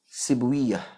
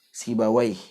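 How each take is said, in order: First: The name ends with a -wiyah sound. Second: The name ends with an -awaih sound. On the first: This is the reading of hadith scholars. "dibaca oleh ulama hadis dengan wiyah" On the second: This is the reading of language scholars. "ulama lughah boleh baca"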